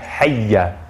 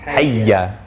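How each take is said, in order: The two takes are said the same way.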